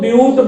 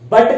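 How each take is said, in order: First: The vowel is a 'yoo' sound. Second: The vowel is a short 'uh' sound. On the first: The speaker calls it right. "आप यहां पर इसको ब्यूट बोलेंगे" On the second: The speaker calls it wrong. "बट कहेंगे गलत होगा"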